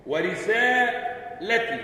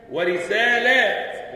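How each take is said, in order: First: ورسالتي said very slowly with a short vowel before the ت; singular reading. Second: ورسالات slow and louder with a long drawn alif before the ت; plural reading. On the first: Teacher reciting the singular reading, slow. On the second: Teacher reciting the plural reading, slow and stretched. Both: Shown as a demonstration. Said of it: "تقرأ بوجهيها المنزلين".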